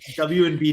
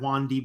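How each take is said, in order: First: The letters W and B are said separately. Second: The first part is blended into one word, 'wand'. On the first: "you're saying W and B dot com" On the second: "are we pronouncing that WanDB these days"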